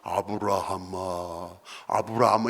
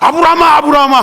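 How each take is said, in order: First: It is called in a calm, mellow voice. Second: It is called in an urgent, hurried voice.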